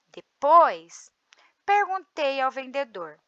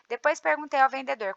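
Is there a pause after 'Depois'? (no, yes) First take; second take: yes; no. First: There is a pause after the first word. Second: The words run together without any pause. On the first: The speaker calls it right. "na segunda leitura, eu expressei um ritmo" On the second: The speaker calls it wrong. "Tudo direto"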